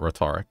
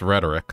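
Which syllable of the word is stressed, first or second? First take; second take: second; first. First: The stress falls on the second syllable. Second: The stress falls on the first syllable. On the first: The speaker calls it wrong. "not rhetoric" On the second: The speaker calls it right. "It's rhetoric"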